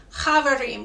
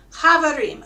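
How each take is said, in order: First: Chavarim with a light ch from the back of the mouth; soft throaty ch. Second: Chavarim with a little back ch, said a bit louder; soft throaty ch. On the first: Teacher to singers: chavarim with a light back-of-mouth ch. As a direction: start chavarim with a little throaty ch. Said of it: "that little ch in the back of your mouth". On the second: Teacher repeats Chavarim for singers to copy, light ch. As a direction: give Chavarim a gentle throaty ch. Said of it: "It's just a little ch". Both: Shown as a demonstration.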